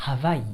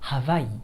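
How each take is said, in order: First: The word is said with a Hawaiian pronunciation. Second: The same.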